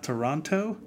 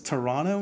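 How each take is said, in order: First: The second t sound is clearly pronounced. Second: The second t sound is dropped. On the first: The speaker calls it wrong. "not Toronto. I was corrected many times" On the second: The speaker calls it right. "So no T"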